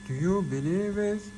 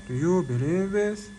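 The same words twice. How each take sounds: The two takes are said the same way.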